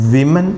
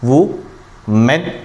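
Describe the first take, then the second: First: The first syllable sounds like 'wi'. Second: The first syllable sounds like 'woo'. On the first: The speaker calls it right. "ഇവിടെ ഈ ആയപ്പോൾ ഇവിടെയാണ് വിമൻ എന്നാണ് ആകുന്നത്" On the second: The speaker calls it wrong. "നമ്മൾ നിയമപ്രകാരം വു മെൻ എന്നാണ് വേണ്ടിയിരുന്നത്"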